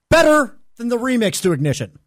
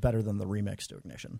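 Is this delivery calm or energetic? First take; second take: energetic; calm. First: It is said with extra energy and force. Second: It is said in a plain, calm way.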